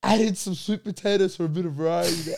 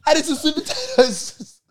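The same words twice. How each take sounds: First: Said in the usual way. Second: Slow, higher, amused; mocking repeat. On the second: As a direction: savour each word mockingly.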